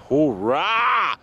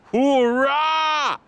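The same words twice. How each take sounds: First: A loud "Hoorah!" with a falling end; loud cheer. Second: "Hoorah!" much higher and loud, falling; high excited cheer. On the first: [name] cheering to viewers, loud. Celebrating nearly home. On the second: [name] celebrating for viewers, high cheer. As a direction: cheer again, soaring up in joy. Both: Real, not acted.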